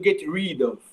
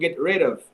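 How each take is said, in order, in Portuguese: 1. A vogal em rid é um som de ee longo. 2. A vogal em rid é curta, entre e e i. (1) "eu não estou pronunciando get rid of" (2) "Estou dizendo get rid of"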